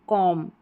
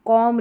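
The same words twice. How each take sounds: First: कॉम ending on m; no b after कॉम; silent b. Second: कॉम with a final b sounded; wrong pronunciation. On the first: Teacher correcting students, कॉम with silent b. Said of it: "बी silent रहता है". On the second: Teacher showing the mistake, b voiced ending कॉम. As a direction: add an audible b to कॉम. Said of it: "कॉम नहीं". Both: Shown as a demonstration.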